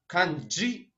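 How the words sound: It is pronounced with a Japanese pronunciation. "Это даже не по-английски"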